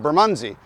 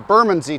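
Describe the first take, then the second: First: It is said the way it is said in Toronto. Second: It is said the way it is said in London. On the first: This is the name as said locally in Toronto. "turned into Bermondsey" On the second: This is the name as said in its home country. "how Bermondsey turned into"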